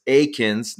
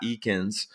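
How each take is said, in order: First: "Akins" said with a long A, AY-kinz; correct pronunciation. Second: "Eakins" said with a long E, EE-kinz; mistaken pronunciation. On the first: Host showing listeners the right name, careful AY-kinz in "Akins". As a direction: say "Akins" starting like the word "ache". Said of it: "I gotta pronounce that right". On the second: Host showing the name he got wrong, EE-kinz in "Eakins". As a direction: say "Eakins" starting with an "ee" sound. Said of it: "I know I messed that up". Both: Shown as a demonstration.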